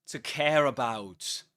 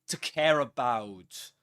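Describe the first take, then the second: The two takes are said the same way.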